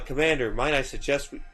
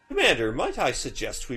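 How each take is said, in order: First: It is said in the speaker's ordinary voice. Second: It is said in a put-on character voice. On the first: The speaker calls it wrong. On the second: The speaker calls it right.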